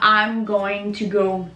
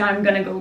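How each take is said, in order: First: 'Going to' is said in full. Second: 'Going to' is shortened to 'gonna'. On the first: "en comment dire traditionnel" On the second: "dans la vie de tous les jours devient gonna"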